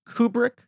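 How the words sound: The name is said the non-British way. This is how the name is actually pronounced. The speaker calls it right. "but apparently it is Kubrick"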